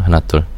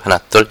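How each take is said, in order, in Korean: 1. 목소리의 저음이 강조돼 있어요. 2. 목소리의 고음이 강조돼 있어요. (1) "다시 로우 필터를 해보겠습니다" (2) "하이 필터만 올려보면"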